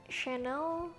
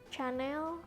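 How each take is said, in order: The two takes are said the same way.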